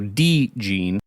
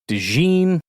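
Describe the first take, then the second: First: The stress is on the first syllable. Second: The stress is on the second syllable. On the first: The speaker calls it right. "D E E as in D, and that's where the emphasis is" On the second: The speaker calls it wrong. "not DeGene, with the emphasis on gene"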